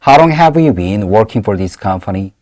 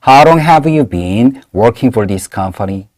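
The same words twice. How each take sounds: First: It is said at a normal speed. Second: It is said slowly.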